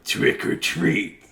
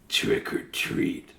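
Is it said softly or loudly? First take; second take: loudly; softly. First: It is said a little louder. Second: It is said very softly.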